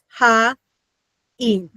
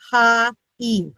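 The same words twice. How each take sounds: First: The two syllables are clearly broken apart. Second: The two syllables run together smoothly. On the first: The speaker calls it right. "make more of a distinction between our first and our second syllable" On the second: The speaker calls it wrong. "English, this would be"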